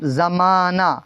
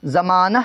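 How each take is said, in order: First: زمانہ drawn out to an open "naa"; silent final h. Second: زمانہ with a breathed h at the end; wrong audible final h. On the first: Teacher models the next example, زمانہ with no final h. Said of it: "اسی طرح کیا ہے؟". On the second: Teacher shows what is not said, زمانہ ending in audible h. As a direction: sound the last ہ of زمانہ as an h. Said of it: "نہیں کہتے ہیں". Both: Shown as a demonstration.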